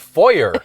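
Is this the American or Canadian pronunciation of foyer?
American. It is said the American way. The speaker calls it wrong.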